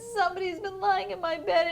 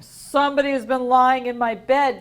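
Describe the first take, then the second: First: It is said in a tiny, small voice. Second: It is said in a big, deep voice.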